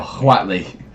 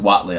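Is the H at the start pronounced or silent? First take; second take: pronounced; silent. First: The word starts with a breathy H before W. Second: The word starts with a plain W sound. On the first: "I go Huatli because I say um, the Boston accent" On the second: "it's just Watley"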